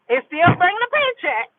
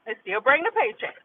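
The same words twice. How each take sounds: First: Lifted high and bright in pitch; high playful lilt; sing-song high. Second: Quick, dropped to a murmur; quick quiet repeat; softer aside. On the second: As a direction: say it again under your breath. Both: Acted.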